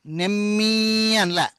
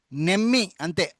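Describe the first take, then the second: First: నెమ్మి drawn out slowly, the double మ్మ pressed and held. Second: నెమ్మి said lightly, without pressing the double మ్మ; plain నెమ్మి. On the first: Teacher showing pupils the pressed, drawn-out నెమ్మి. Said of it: "నేనేం ఎక్కువ ఇది చేయలే". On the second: Teacher contrasting plain నెమ్మి with a pressed one. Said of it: "ఒత్తి పలికిన నెమ్మి". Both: Shown as a demonstration.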